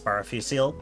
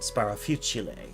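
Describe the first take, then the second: First: The name is pronounced the English way. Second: The name is pronounced the Italian way. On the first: "I only ever heard um Sparafusil's name as Sparafusil" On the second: "they said it with the Italian pronunciation"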